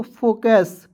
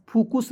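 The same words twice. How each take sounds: First: फोकस with o then a short a, "fokas"; फोकस as the right reading; correct pronunciation. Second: फुकुस with u in both syllables, "fukus"; फुकुस as the mistaken reading; wrong pronunciation. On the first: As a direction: say फोकस with a clear o. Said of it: "क्या हो जाएगा दोस्तों?". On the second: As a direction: say फुकुस with two u sounds. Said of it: "फुकुस नहीं पढ़ लेंगे". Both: Shown as a demonstration.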